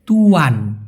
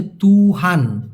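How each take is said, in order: First: তুয়ান said slowly as tu-an, no h; তুয়ান as two clean syllables; careful pronunciation. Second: তুহান with a clear h in the middle; তুহান said slowly with a sounded h; careful pronunciation. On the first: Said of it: "উচ্চারণ হচ্ছে". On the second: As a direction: model তুহান as tu-han, breathing the h. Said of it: "উচ্চারণটা হচ্ছে". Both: Shown as a demonstration.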